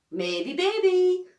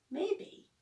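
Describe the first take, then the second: First: High, loud, drawn-out singsong; teasing grin. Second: High, rising maybe; noncommittal. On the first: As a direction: tease a friend, stretching it out with a grin. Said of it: "grins Be-, Beaky, nu-, nudging me". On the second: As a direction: dodge the question with a hopeful lilt. Evasive answer, fingers crossed. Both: A narrator's reading.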